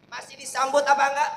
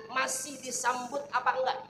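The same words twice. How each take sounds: First: Repeated loud and fast; louder repeat. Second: Said in the usual way. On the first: Shown as a demonstration. Preacher repeating his question to the women, louder and faster. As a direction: push the question again harder.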